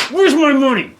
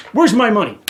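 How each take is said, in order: First: Much higher and louder shouted repeat; shouting again at the association over the money; angry shout. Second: Louder angry question; angry demand. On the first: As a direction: yell the demand, escalating. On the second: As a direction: demand it, heated. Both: Real, not acted. Ranting at the homeowners association.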